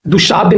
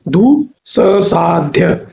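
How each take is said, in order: First: दुस्साध्य with a single sh, as दुशाध्य; wrong form. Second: दुस्साध्य slowly as du-s-saadhya, double s; correct form, broken down. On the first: Teacher showing the mistake, दुस्साध्य said with sh. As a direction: say दुस्साध्य as du-shaadhya, unbroken. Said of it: "नहीं होता है". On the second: Teacher showing the right spelling, दुस्साध्य slowly with double s. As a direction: stretch and separate दुस्साध्य, sounding both s's. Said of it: "ऐसा होता है". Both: Shown as a demonstration.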